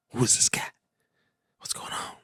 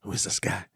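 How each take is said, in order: First: Hushed, breathy whisper to himself. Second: Said in the usual way. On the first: Real, not acted. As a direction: whisper it so the show isn't disturbed. Reacting to a show on screen.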